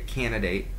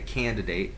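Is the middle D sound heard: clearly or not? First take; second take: not; clearly. First: The middle D sound is dropped. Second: The middle D sound is clearly pronounced. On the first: "Some people might say candidate" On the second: "I said the extra D"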